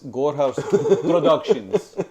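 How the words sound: It is said in a put-on Russian accent.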